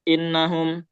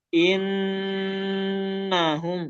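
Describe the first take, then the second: First: The doubled n is said quickly, barely held. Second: The doubled n is held for too long. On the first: "jadi jangan cepet-cepet. Jangan innahum" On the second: "Jangan juga terlalu panjang. ... itu terlalu panjang"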